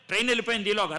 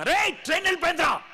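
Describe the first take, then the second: First: Said in the usual way. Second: Higher, fast shout of Rey; retold yell. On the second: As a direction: yell it at your friend as the train leaves. Yelling at friend, train gone.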